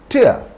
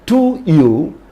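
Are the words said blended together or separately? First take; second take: blended; separate. First: The two words blend into one reduced syllable. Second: The two words are said separately and fully.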